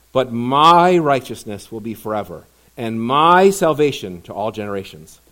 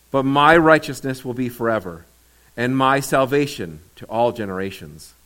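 Both takes have the same delivery.

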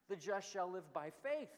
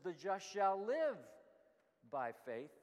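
First: The stress is on the word faith. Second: The stress is on the word live.

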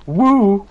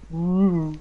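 First: It is loud, excited and pumped up. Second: It is soft, airy and floaty.

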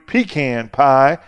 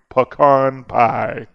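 First: Pecan is said the South Carolina way. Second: Pecan is said the Texas way.

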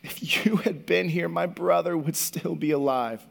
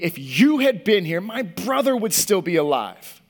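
First: It sounds heartbroken and sad. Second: It sounds angry and accusing.

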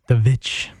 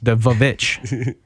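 First: A single drawn-out V sound starts the word. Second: Two V sounds are split by a vowel. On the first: The speaker calls it right. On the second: The speaker calls it wrong.

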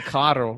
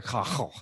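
First: It is said in standard Spanish. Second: It is said in a jíbaro mountain accent.

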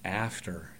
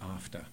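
First: It is said with a Middle American accent. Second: It is said with a British accent.

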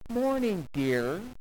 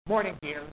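First: It is said in a warm, loving tone. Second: It is said in a cold, grudging tone. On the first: The words are said with genuine affection. The speaker calls it right. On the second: The words are said without real affection. The speaker calls it wrong. "there is a right way and there is a wrong way to say this"

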